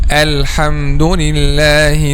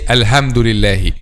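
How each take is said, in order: First: The h is a strong, breathy throat sound. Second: The h is a light English h. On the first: The speaker calls it right. "when you breathe on glasses before cleaning them" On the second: The speaker calls it wrong. "they pronounce it like letter H in English"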